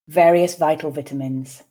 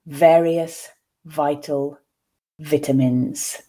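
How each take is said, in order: First: The phrase is spoken at a natural speed. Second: The phrase is spoken slowly and carefully. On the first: "I'll then read once again at a more natural pace" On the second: "I will read once slowly for you to grasp the words"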